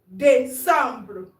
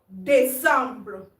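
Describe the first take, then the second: The two takes are said the same way.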